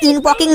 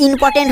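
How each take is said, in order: First: ইনপকিং, ending in "poking"; quoted mispronunciation. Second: ইম্পর্টেন্ট, ending in "portent"; corrected pronunciation. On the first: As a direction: echo the garbled ইনপকিং for important. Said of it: "আরে ওটা ইনপকিং না". (ইনপকিং, ভুল উচ্চারণের নকল) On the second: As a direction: say ইম্পর্টেন্ট with its two t sounds. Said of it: "ইম্পর্টেন্ট হবে". (ইম্পর্টেন্ট, শুদ্ধ করে উচ্চারণ) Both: Acted.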